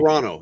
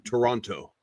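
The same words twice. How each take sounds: First: The second T sound is dropped. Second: The second T sound is clearly pronounced.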